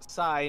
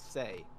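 First: The vowel is said like 'eye'. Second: The vowel is said like 'day'. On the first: The speaker calls it right. "So it's Sai" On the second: The speaker calls it wrong. "not Say"

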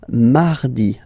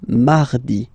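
No difference in how they are said.

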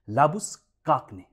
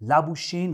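First: The name ends with a 'kagne' sound. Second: The name ends with a 'shane' sound. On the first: The speaker calls it right. "इनका सही नाम है" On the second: The speaker calls it wrong. "इनका उच्चारण common तौर पे लाबुशेन हो गया"

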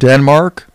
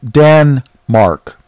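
First: The first syllable sounds like 'den'. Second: The first syllable sounds like 'dan'. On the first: "that's not how they pronounce it" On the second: "They pronounce it Dan-mark, the mark of Dan"

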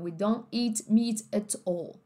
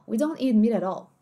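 First: Each t is crisply released with a puff of air. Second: The t sounds are soft and the words blend together. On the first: "ele tem um T mais soando como T mesmo, um T sopro" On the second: "parece que cinco palavras são uma só"

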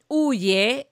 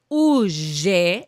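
First: The y is said as a plain y. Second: The y is said the Argentine way. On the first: "en aquellos idiomas donde no se hace la y" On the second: "en argentino se hace ye"

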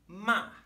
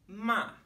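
No difference in how they are said.

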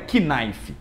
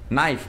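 First: The word starts with a K sound. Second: The word starts with an N sound. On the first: The speaker calls it wrong. "não é knife" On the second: The speaker calls it right. "quando ela vem antes do N... não é pronunciada"

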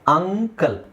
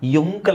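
First: The word begins with a plain 'uh' vowel. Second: The word begins with a 'y' sound. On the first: The speaker calls it right. "ಅಂಕಲ್ ಫಸ್ಟಿಗೆ ಅಕ್ಷರ ಬರೋದು ಯಾವುದು ಆ" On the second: The speaker calls it wrong. "ಯುಂಕಲ್ ಅಂತ ಹೇಳ್ತೀವಾ, ಇಲ್ಲ"

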